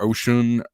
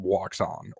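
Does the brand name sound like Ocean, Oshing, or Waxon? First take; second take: Ocean; Waxon. First: The name sounds like the word 'ocean'. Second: The name starts with a w sound, like 'Waxon'. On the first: This is how some other people say it. "or Ocean" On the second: This is how the speaker and locals say it. "Waxon is what I call it"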